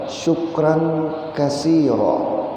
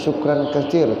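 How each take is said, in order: First: The last word ends with a final vowel. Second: The last word ends on a final consonant. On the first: "seharusnya syukran kasira" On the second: "umum orang menyambat"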